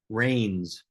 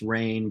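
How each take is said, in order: First: It rhymes with 'train' and ends in s. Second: It rhymes with 'train', with no final s. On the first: The speaker calls it wrong. "or worse, Rains" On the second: The speaker calls it right. "it's pronounced Rain"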